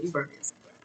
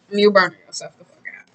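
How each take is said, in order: First: Said in the usual way. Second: Louder, punching "fuck out"; emphatic repeat. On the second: Real, not acted. Reader warning a viewer about burnout, emphatic and louder. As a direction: drive the point home hard.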